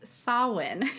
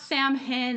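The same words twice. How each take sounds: First: It is said very differently from its spelling. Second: It is said closely following its spelling. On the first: The speaker calls it right. "It's Samhain is how we would pronounce it" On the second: The speaker calls it wrong. "It's not Samhain"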